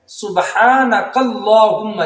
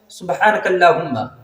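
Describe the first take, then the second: First: The long vowel in Allahumma is fully pronounced. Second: The long vowel in Allahumma is dropped. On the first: The speaker calls it right. "यानी अलिफ है तो उसको भी पढ़ना है" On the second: The speaker calls it wrong. "लोग पढ़ते किस तरीके से हैं? ... यानी ये गलत है।"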